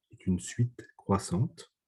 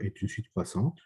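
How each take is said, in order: First: Slow, deliberate dictation, every word spaced out; slower. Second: Said in the usual way. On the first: Shown as a demonstration. Teacher slowing down so students can copy, slow and deliberate. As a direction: take it down a gear so they can write it. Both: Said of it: "je parle plus lentement".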